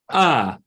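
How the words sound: The vowel starts with an abrupt click.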